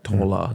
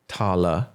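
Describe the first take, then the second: First: It is said in the local dialect form. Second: It is said in the standard form.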